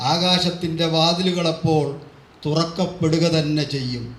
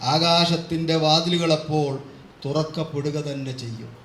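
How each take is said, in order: No difference in how they are said.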